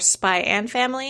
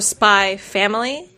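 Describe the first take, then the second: First: The X is said as the word and. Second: The X is left out completely. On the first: "or Spy and Family" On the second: "the claim is it's supposed to be silent"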